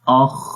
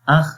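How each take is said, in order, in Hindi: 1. "kh" की आवाज़ मोटी और भारी है। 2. "kh" की आवाज़ पतली और हल्की है। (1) "एक तो मोटा पढ़ेंगे" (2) "बारीक अख अख, तो वो गलत होगा"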